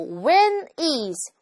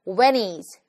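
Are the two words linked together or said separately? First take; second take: separately; linked. First: The two words are said separately, one by one. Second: The two words run together quickly as one. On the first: The speaker calls it wrong. "진짜로 이렇게 얘기하면 되게 이상하죠" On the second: The speaker calls it right. "빠르게 발음을 하는 상황에서는"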